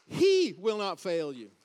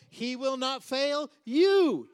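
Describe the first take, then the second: First: Opening "He" shouted long, then falling away; stress on He. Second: Final "you" stretched long, high and very loud; stress on you. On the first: Preacher re-emphasizing a promise to the congregation, stress on opening "He". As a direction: blast the first word "He", let the rest drop. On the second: Preacher re-emphasizing a promise to the congregation, stress on final "you". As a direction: build to a huge, drawn-out "you". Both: Shown as a demonstration. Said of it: "You can emphasize it any way you want".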